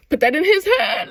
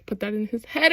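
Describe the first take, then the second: First: Loud, high, pushed shout; hammed-up loud push; emphatic shout. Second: Said in the usual way. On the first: Shown as a demonstration. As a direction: yell it like a command.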